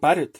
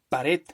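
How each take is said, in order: First: The stress is on the first syllable. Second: The stress is on the last syllable. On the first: The speaker calls it wrong. "no digo pared" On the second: The speaker calls it right. "yo pronuncio pared"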